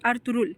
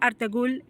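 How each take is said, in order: First: The g sound in the middle is silent. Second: The g sound in the middle is pronounced. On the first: The speaker calls it right. "It's अर्तुरुल। ... वो साइलेंट रहता है" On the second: The speaker calls it wrong. "It's not अर्तगुल"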